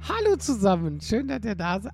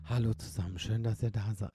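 First: It is said very loudly, almost shouted. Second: It is said at a quieter, normal volume.

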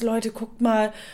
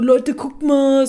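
First: It sounds shocked and dismayed. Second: It sounds excited and sensation-seeking. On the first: The speaker is genuinely alarmed by what is happening. The speaker calls it right. "in dem Moment, oh krass" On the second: The speaker wants attention for the spectacle. The speaker calls it wrong. "oh mein Gott, sensationsgeil"

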